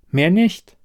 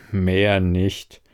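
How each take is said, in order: First: High-pitched, rising MEHR NICHT; higher-voiced protest ending on a rise; insistent assurance. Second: Low, drawn-out "Mehr nicht"; dry, lower repeat of her words; sceptical echo. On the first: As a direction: lift "Mehr nicht" upward, eager to reassure. She insists, he echoes sceptically. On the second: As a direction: echo it back low and doubting. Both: A narrator's reading.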